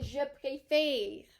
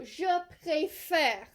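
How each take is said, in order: First: "préfère" wrongly ending in "fay-r"; closed é in préfère. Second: "préfère" ending in open "fair" sound. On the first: Teacher shows the ending to avoid, closed é in "préfère". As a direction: say "préfère" with a tight, closed final e. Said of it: "We do not want to end it with". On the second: Teacher shows the grave accent's sound, open è in "préfère". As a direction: slowly say "préfère" with an open final e. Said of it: "to an accent grave". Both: Shown as a demonstration.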